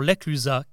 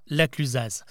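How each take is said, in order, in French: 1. Le z final est muet. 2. Le z final se prononce.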